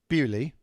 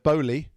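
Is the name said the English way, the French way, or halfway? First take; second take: English; halfway. First: The name is said the English way. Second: The name is said halfway between both ways. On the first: "That's the English pronunciation" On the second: "That's a kind of a halfway uh, halfway there"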